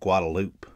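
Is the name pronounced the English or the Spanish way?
English. It is pronounced the English way. This is what locals call it. The speaker calls it wrong. "but everybody calls it"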